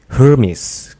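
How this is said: The name is said with an American accent. "Biasanya tuh kalau U S, Amrik gitu Hermes gitu"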